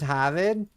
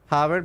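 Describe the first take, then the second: First: It is said in a Boston accent. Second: It is said in a general American accent.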